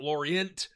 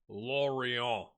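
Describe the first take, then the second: First: The final T is pronounced at the end. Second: The word ends without any T sound. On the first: The speaker calls it wrong. "you don't say the T, it's not Lorient" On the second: The speaker calls it right. "So, Lorient"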